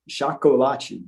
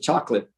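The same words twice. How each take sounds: First: It is said with Portuguese pronunciation, four syllables. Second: It is said with English pronunciation, two syllables. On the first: "in Portuguese it's chocolate" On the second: "in English it's just chocolate, you know, half"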